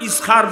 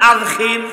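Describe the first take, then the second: First: It is said with an 's' sound, ending '-khar'. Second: It is said with a 'dh' sound, ending '-khir'. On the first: The speaker calls it wrong. "এটা তালাফুজ শুদ্ধ না" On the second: The speaker calls it right. "এটা শুদ্ধ"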